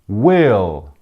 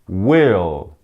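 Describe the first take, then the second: The two takes are said the same way.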